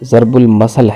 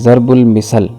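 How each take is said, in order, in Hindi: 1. आख़िरी लफ़्ज़ 'a' स्वर से शुरू होता है। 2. आख़िरी लफ़्ज़ 'i' स्वर से शुरू होता है। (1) "दुरुस्त लफ्ज़" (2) "लफ्ज़ बोलते हैं"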